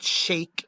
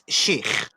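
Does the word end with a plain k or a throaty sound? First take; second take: plain k; throaty. First: The word ends with a plain k sound. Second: The word ends with a throaty guttural sound. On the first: The speaker calls it wrong. "it's not sheikh" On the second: The speaker calls it right. "in the Arabic accent, it's sheikh"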